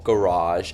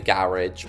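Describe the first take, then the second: First: It is said with an American pronunciation. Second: It is said with a British pronunciation.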